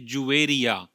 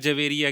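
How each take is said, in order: First: The first syllable has a 'u' vowel. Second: The first syllable has an 'a' vowel. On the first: The speaker calls it right. "असल लफ्ज़ है जुवेरिया। जीम पर पेश है" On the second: The speaker calls it wrong. "बहुत सारे लोग इसकी प्रोनाउंसिएशन भी गलत करते हैं"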